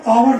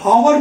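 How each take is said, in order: First: The word begins with a vowel sound. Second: The word begins with an h sound. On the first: The speaker calls it right. "ऑवर निकलती है" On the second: The speaker calls it wrong. "वो हॉवर नहीं निकलती"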